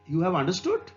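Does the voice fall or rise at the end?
rise. It is said as a question, rising at the end.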